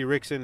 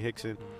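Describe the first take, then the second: First: The name starts with an English R sound. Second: The name starts with an H sound. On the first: The speaker calls it wrong. "if you guys see Rickson" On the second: The speaker calls it right. "it's really Hickson. That's how you pronounce it, like, in Portuguese"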